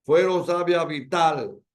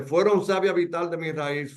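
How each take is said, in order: First: "Fueron savia vital" slowed, with weight on "Fue" and "tal"; stress on accented syllables. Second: Said in the usual way. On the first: Shown as a demonstration. Teacher scanning the verse for accents, "vital" stressed slowly. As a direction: land firmly on the last syllable of "vital". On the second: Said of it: "Veamos un ejemplo de un enfático".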